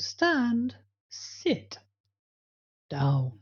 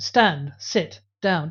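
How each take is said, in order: First: It is said with clearly varied pitch. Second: It is said in a flat monotone.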